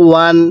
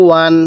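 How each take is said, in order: Both takes have the same delivery.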